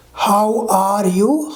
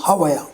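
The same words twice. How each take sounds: First: Very slow, separate "How are you"; unreduced pronunciation. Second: "How are you" squashed into "hava-ya"; quick, lower "How are you" as one word; reduced form. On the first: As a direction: stretch each word of "How are you". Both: Shown as a demonstration. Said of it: "how it changed".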